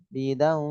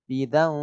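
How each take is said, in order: The two takes are said the same way.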